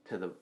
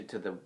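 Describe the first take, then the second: Both takes have the same delivery.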